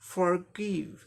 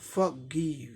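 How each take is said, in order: First: The r sound is pronounced, American style. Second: The r sound is dropped, British style. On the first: "र होगा, थोड़ा सा pressed करके बोलना पड़ता है" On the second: "आर silent हो गया"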